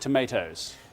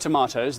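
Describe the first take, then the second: First: It is said in an American accent. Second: It is said in a British accent. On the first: This is how people in America say it. "they say tomatoes" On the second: This is how people here say it. "Now we say tomatoes"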